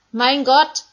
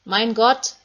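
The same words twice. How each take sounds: First: Even louder, higher cry rising; Jesus screaming to God from the cross; louder desperate cry. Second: Loud cry, rising at the end; Jesus crying out on the cross. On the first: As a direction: cry out harder, more desperate. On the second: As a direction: call out to God in agony. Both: Acted. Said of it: "Da hören sie Jesus schreien".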